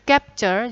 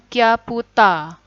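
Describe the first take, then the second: First: It is said the English way. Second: It is said the Japanese way, ending in a vowel. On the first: "kosakata asing bahasa Inggris" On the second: "capture jadinya kyaputa"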